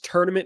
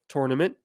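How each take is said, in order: First: It has a West Coast 'turn' first syllable. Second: It has an East Coast 'tour' first syllable.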